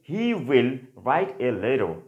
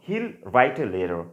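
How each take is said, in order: First: Both words 'he will' are said in full. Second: 'He will' is merged into one syllable 'he'll'. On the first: "আমরা যদি বলি" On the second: "আমরা বলবো"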